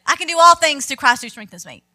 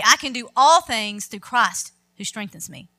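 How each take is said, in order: First: Loud, tossed-off recital of "I can do all things through Christ who strengthens me"; flippant. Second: Steady, sincere "I can do all things through Christ who strengthens me"; preacher showing the verse spoken with conviction; in faith. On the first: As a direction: rattle off "I can do all things" carelessly, with no faith. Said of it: "You can't just flippantly say". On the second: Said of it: "You say it in faith". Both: Shown as a demonstration.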